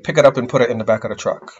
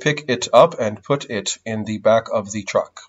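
First: The t sounds between vowels are quick flaps. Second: The t sounds between vowels are crisp. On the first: The speaker calls it right. "you would say" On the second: The speaker calls it wrong. "Instead of saying"

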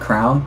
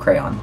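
First: It is said as one syllable, like crown. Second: It is said as two syllables, cray-on. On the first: "I used to pronounce it crown when I was in elementary school" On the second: "whenever I figured out how I spelled, I was like, oh"

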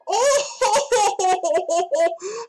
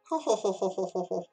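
First: It is said in a female character voice. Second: It is said in his normal voice.

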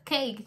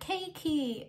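First: The word ends cleanly on the k consonant. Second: The word ends with an added ee vowel. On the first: The speaker calls it right. "Just say cake and end it there" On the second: The speaker calls it wrong. "they add like E sound at the end"

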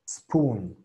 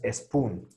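First: The word starts directly with the s. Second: An extra e vowel comes before the s. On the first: The speaker calls it right. "Es directamente a la S" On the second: The speaker calls it wrong. "esta E no existe. No es spoon"

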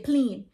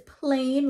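First: It is said in a Bahamian accent. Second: It is said in a standard accent.

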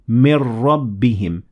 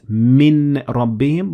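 First: The n merges into the following r sound. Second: The n is pronounced clearly before the r. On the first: The speaker calls it right. "we merge them together and we say mir rabbihim" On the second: The speaker calls it wrong. "not min rabbihim"

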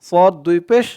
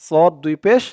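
No difference in how they are said.

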